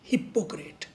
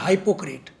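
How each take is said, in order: First: The first syllable sounds like hip. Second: The first syllable sounds like hype. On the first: The speaker calls it right. "हिपोक्रेट is right one" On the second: The speaker calls it wrong. "हाइपोक्रेट is totally wrong"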